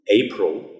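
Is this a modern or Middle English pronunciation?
modern. It is said with modern English vowels. "as we would say nowadays"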